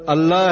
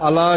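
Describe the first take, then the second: First: ਅੱਲਾ with a held double L; doubled L. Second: ਅਲਾ with one short L; single L. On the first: Preacher showing listeners the shadd, ਅੱਲਾ with doubled L. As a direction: stress the geminate L in ਅੱਲਾ. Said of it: "ਅੱਲਾ ਸ਼ਬਦ ਦਾ ਉਚਾਰਨ ਤਾਂ ਹੋਵੇਗਾ". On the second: Preacher showing the mistake without shadd, ਅਲਾ with single L. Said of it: "ਬਿਨਾਂ ਸ਼ੱਦ ਦੇ". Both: Shown as a demonstration.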